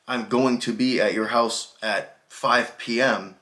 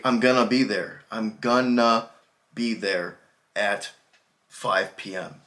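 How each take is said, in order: First: Said in the usual way. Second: "gonna" said fast as kʌnə, vowels reduced; casual gonna. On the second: Shown as a demonstration. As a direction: run "gonna" together like one quick word. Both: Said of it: "the way to pronounce this is gonna".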